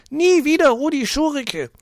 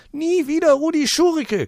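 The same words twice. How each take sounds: First: Put-on very high, loud shriek of a fat old lady. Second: Very high, loud crowing shriek. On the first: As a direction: shriek it across the room. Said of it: "Eine dicke Frau kreischt". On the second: Acted. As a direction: crow the slogan again. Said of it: "kräht". (krähend)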